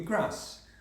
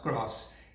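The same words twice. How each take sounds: First: It is said in a Northern English accent. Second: It is said in a Southern English accent. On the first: "In Northern English, that would be grass" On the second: "Southern English A in grass, pronounced grass"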